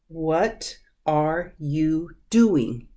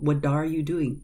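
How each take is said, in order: First: The T in 'what' is a clear T. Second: The T in 'what' is a soft flapped D.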